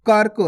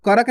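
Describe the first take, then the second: First: कर्क as one syllable, "kark"; no vowel between r and k in कर्क; half R. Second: करक in two syllables, "ka-rak"; wrong full R. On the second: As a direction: sound a whole "ra" inside करक. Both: Shown as a demonstration. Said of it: "करक नहीं".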